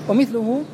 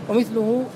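No difference in how they are said.

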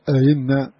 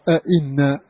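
First: The second glottal stop is softened and eased. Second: The second glottal stop is fully pronounced. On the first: "منهم من سهلها" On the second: "ومنهم من حققها"

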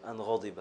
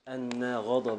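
First: The first word has a single light n. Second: The first word has a doubled n sound. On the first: The particle is lightened and followed by a past verb. "نافع الذي يرفع الخامسة ويخفف أن ... يجعله فعلا ماضيا" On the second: The particle is the emphatic one followed by a noun. "بالتثقيل"

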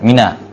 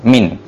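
First: The word ends in a final vowel sound. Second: The word ends in a consonant sound. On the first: This is the original full form of the word. "sebagian ulama mengatakan bahwa min asalnya adalah mina" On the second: The vowel is dropped because the word is used so often. "Dibaca sukun"

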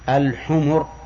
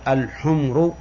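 First: The m is followed by a vowel. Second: The m has no vowel after it. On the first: It means donkeys. The speaker calls it right. "لكن يجب أن تقول الحمر" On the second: It means red ones. The speaker calls it wrong. "لا يصح أن تنطق بها بسكون الميم، لأنك إذا قلت الحمر فهي جمع أحمر أو حمراء"

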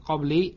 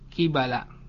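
First: It is said qabli, ending in -i. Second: It is said qibala, ending in -ala. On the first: The speaker calls it wrong. "bukan qabli" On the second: The speaker calls it right. "kibala dibaca dengan mengkasrohkan qaf dan memfathahkan ya, memfathahkan ba"

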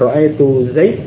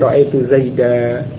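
First: The name ends on a bare d sound. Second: The name ends on a short a vowel. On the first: The speaker calls it wrong. "Bukan ra'aitu Zaid" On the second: The speaker calls it right. "tetapi ra'aitu Zaida"

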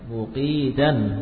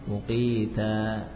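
First: The word ends with an n sound. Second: The word ends on a vowel without n. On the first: The word is read without stopping on it. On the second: The reader stops on this word.

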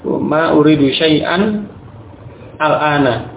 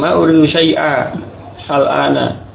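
First: The words are separated, keeping a final n. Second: The words are separated, with no final n. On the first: "Adapun ketika membaca terpisah, maka kembali ke asalnya" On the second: "Ini juga boleh"

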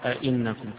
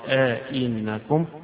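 First: Both glottal stops are fully pronounced with no gap. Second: A long a-vowel separates two fully pronounced glottal stops. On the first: "فيقرأ آئنكم كغيره" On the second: "وبالإدخال"

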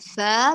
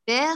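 First: The vowel is a clear open a sound. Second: The vowel is tilted toward an e sound. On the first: The speaker calls it right. "فا بالفتح" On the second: The speaker calls it wrong. "ليس فا ... فا خاطئة"

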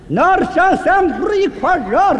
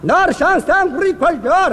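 First: The phrase is spoken at a very slow pace. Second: The phrase is spoken at a slower pace. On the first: "再慢点" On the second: "慢点"

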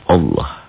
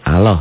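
First: The L sound is heavy and thick. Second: The L sound is light and thin. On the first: The speaker calls it right. "Dibaca tebel berbunyi O Allah" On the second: The speaker calls it wrong. "Jangan Allah ya"

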